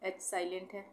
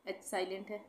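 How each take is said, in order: Both takes have the same delivery.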